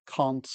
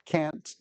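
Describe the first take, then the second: First: "can't" with a broad "ah"; British CAN'T. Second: "can't" with the vowel of "cat"; American CAN'T. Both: Shown as a demonstration. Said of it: "it's intonations like that".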